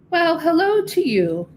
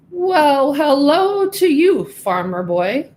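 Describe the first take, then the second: First: Higher, lilting friendly cow greeting; a gentle cow saying hello. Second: Higher, louder, slow pompous pig greeting; a grand pig showing off to the farm boy; proud pig. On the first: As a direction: greet him as a kindly farm cow. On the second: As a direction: drawl it out like a boastful show pig. Show pig greets Pedro. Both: Acted.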